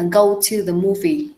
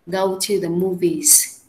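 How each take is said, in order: First: Said in the usual way. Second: "Go to the movies" said very slowly, word by word; slow dictation. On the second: Shown as a demonstration. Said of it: "Em viết ra vở là to go to the movies".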